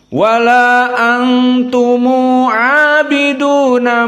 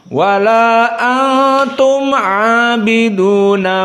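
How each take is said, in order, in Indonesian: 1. Huruf m pada antum diikuti oleh u. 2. Huruf m pada antum diakhiri tanpa vokal. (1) "Kita baca qasr dan mim al-jama'" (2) "qasr di sini"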